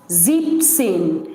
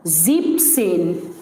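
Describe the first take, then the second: No difference in how they are said.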